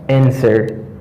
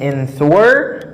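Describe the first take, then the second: First: The W is silent, with no W sound. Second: The W sound is pronounced after the n. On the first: The speaker calls it right. "but I have answer" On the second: The speaker calls it wrong. "Mba gen answer"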